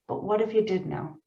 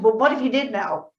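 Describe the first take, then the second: First: It is said quietly and lovingly. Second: It is said with a harsh attitude.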